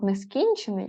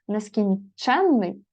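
First: Нескінчений with stress on КІН, short н; stress on second syllable. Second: Нескінченний with stress on ЧЕН, long нн; stress on third syllable. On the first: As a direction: hit КІН in нескінчений, single н. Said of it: "як дієприкметник". (нескінчений: наголос на КІН, коротке «н») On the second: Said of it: "це прикметник чи дієприкметник". (нескінченний: наголос на ЧЕН, подовжене «нн») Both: Shown as a demonstration.

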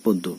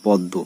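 First: পদ্ম as "pod-do"; correct closed o. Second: পদ্ম with a wide "paw-ddo"; wrong open o. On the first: Teacher shows what we say, পদ্ম with closed o. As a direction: round the first vowel of পদ্ম to o. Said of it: "আমরা উচ্চারণ করছি". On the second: Teacher shows what we don't say, পদ্ম with open aw. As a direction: open the first vowel of পদ্ম to aw. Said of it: "আমরা কিন্তু বলি না". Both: Shown as a demonstration.

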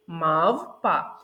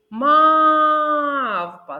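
First: Мавпа with МАВ held and falling; stress on first syllable. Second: Мавпа with МАВ long, high and loud; stressed first syllable. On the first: Teacher to children: Мавпа stressed on МАВ. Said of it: "який же склад буде наголошеним". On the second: Teacher showing little ones the stressed vowel in Мавпа, drawn out. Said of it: "виділити якийсь певний звук". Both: Shown as a demonstration.

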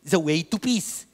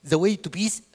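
The two takes are said the same way.

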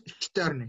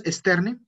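First: EXTERNE said "shterne", with a strong SH before T; S como sh. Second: EXTERNE said "esterne", with a plain S; S simple, a la española. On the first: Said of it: "S antes de la T suena sh fuerte". ("externe" como "shterne", con sh fuerte) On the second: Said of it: "no decimos externe". ("externe" como "esterne", con S normal) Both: Shown as a demonstration.

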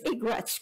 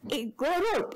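First: "Igwats", run into two syllables; mispronounced Igorot. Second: Said in the usual way. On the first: Retold or imitated. Echoing the officer's odd word, mispronounced "Igwats". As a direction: garble it as "Igwats". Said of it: "the man at the immigration said". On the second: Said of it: "give a talk on the Igwats".

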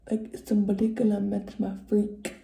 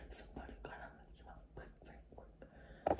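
First: Said in the usual way. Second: Whispered lyric. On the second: Retold or imitated. Lyric repeated playfully.

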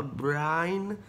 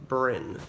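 First: Brian said as two syllables, BRY-an; Brian, like the boy's name; wrong name. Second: Brynn said short, rhyming with Lynn; Brynn, one clean syllable; correct name. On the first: Retold or imitated. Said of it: "think it says Brian". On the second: Shown as a demonstration. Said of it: "people can't read my name".

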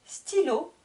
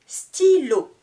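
First: Said in the usual way. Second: "Stylo" loud and high, Sty-lo drawn out; split into syllables. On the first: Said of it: "je vous répète le vocabulaire de chaque mot". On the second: Shown as a demonstration. Teacher introducing the word, "Stylo" in two strong beats. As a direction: stretch both beats of "Stylo". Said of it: "Deux syllabes".

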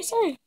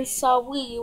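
First: Said in the usual way. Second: Sawi with a w where the r goes; says w for r. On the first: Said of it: "I don't mean sorry with the two R's". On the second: Shown as a demonstration. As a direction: say Sawi like a baby, w for r. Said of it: "I mean Sawi with the two W's".

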